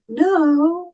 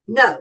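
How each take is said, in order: First: It sounds unsure, like a question. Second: It sounds firm and committed.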